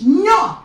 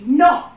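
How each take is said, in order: First: "No" in a mock Spanish accent, loud and much higher; bad Spanish accent on "No". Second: "No" said loud and higher in a plain English accent. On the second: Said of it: "it was said in English". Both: Shown as a demonstration.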